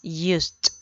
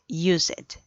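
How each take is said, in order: First: The ending is pronounced as 't'. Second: The ending is pronounced as 'ed'. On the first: The speaker calls it right. "se elimina la ed y se reemplaza por una t al final" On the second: The speaker calls it wrong. "No es ... used"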